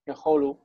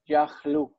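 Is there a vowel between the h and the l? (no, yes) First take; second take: yes; no. First: A full o vowel is heard after the h. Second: No vowel is heard between the h and l. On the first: The word stands at a pause in the verse. "the Yaholu is a pausal form" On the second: The word is in its ordinary, non-pausal form. "The normal past tense is Yahlu"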